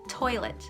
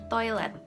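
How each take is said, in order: First: The T is made behind the upper gums. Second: The T is made with tongue against teeth. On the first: This is how English speakers say it. "Toilet, so t" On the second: This is how Indonesian speakers say it. "But in Indonesian, people would say toilet"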